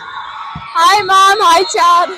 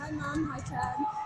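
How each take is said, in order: First: It is said louder. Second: It is said at normal, quieter volume.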